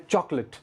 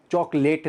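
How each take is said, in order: First: चॉकलेट with a short, reduced last syllable, "chok-lit"; correct pronunciation. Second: चॉकलेट with a full "late" at the end; wrong pronunciation. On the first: English teacher modelling चॉकलेट for learners, correct pronunciation. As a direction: say चॉकलेट ending in a quick unstressed "lit". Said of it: "चॉकलेट नहीं है". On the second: Teacher showing the mistake to avoid, चॉकलेट ending like "late". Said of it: "लेट करके नहीं खाना इसको". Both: Shown as a demonstration.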